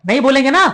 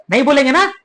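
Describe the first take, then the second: No difference in how they are said.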